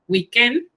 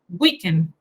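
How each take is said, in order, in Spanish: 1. Se acentúa a la manera francesa. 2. Se acentúa a la manera inglesa. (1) "En francés, weekend" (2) "y en inglés es weekend"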